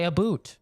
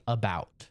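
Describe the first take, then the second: First: About said as "a boot", with "oo"; Canadian "a boot". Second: "about" slowly, with a clear "ow"; standard about. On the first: Retold or imitated. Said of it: "my fellow Canadians have an accent". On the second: Shown as a demonstration. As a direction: say "about" as uh-BOWT, not with "oo". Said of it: "it's A B O U T".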